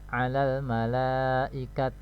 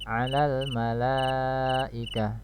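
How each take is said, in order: First: The last word ends with a t sound. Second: The last word ends with an h sound. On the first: The speaker calls it wrong. "hanya disukunkan tanya jadi alal malaikat. Nah, ini salah ya" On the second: The speaker calls it right. "cara membaca wakafnya adalah alal malaikah"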